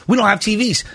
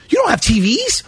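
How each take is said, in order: First: Plain falling statement; retold unbothered reply, falling at the end; matter-of-fact answer. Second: Higher, rising disbelief; retold disbelieving query, pitch up at the end; incredulous question. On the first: Retold exchange, staff answer him. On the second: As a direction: echo it back as a stunned question. Retold exchange, he queries the answer.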